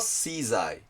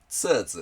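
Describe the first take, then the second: First: It is read English style, 'shizai'. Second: It is read the Chinese way, 'tsuzu'. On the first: "英語式に読むと" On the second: "中国語だとツーズって読みます"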